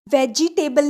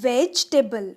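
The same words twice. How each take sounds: First: "वेजिटेबल" with an extra i, ve-ji-te-bal; four-syllable वेजिटेबल. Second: "वेजिटेबल" as vej-te-bal, middle i dropped; three-syllable वेजिटेबल. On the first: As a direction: sound out the middle "ji" in "वेजिटेबल". ("वेजिटेबल" में "जि" पूरा बोलें) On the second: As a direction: drop the i after j in "वेजिटेबल". ("वेजिटेबल" को "वेज-टेबल" जैसा बोलें) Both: Shown as a demonstration. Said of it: "वेजिटेबल नहीं".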